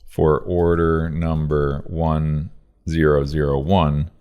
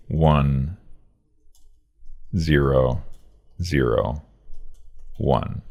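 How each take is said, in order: First: Said in the usual way. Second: "one zero zero one" with a long pause after each digit; "one", "zero", "zero", "one" spaced out slowly and clearly; slow, separated digits. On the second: Shown as a demonstration. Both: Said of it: "Say the number slowly so each number is clear".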